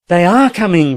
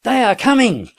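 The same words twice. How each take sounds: First: Louder, higher joyful cry. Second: Very high, piercing cry; piercing shout. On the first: Captain echoing the sergeant, crying out with joy. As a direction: burst out in relief. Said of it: "repeated the captain with a cry of joy". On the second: Sergeant calling down from the garret, piercing shout. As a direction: shriek the good news from above. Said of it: "uttered a piercing shout". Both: A narrator's reading.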